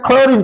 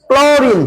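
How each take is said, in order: First: "ক্লোরিন" opening on a breathy KH sound; aspirated KH start. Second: "ক্লোরিন" opening on a hard K straight into L; plain K-L start. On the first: Teacher testing the spelling CH aloud, "ক্লোরিন" with a KH onset. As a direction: say "ক্লোরিন" with খ for its first consonant. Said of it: "খ উচ্চারণ হবে না". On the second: Teacher showing pupils the sound behind CL, "ক্লোরিন" with a clear K-L onset. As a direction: say "ক্লোরিন" with ক and ল run together. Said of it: "এখানে উচ্চারণ কি". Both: Shown as a demonstration.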